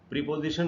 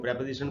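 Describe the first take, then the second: First: The first vowel is a long 'ee' sound. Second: The first vowel is a short 'e' sound. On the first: The speaker calls it wrong. "गलत उच्चारण है" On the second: The speaker calls it right. "हमको प्रेपोजिशन बोलना चाहिए"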